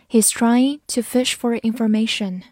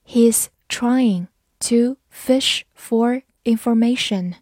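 First: Said in the usual way. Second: Word by word, with clear gaps; slow reading. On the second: Shown as a demonstration. English teacher models the sentence for learners, slow reading. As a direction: read it slowly for learners, each word separate. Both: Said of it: "慢慢来读".

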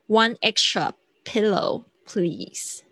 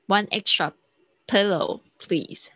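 First: Slow polite request; slow model. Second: Said in the usual way. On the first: Shown as a demonstration. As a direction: model it slowly. (慢速示范) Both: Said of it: "用到extra了".

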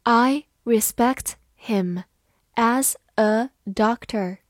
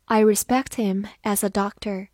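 First: Slow, careful read-aloud; slow classroom model reading. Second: Said in the usual way. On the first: Shown as a demonstration. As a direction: read it slowly for the class to follow. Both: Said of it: "好，慢慢来读。".

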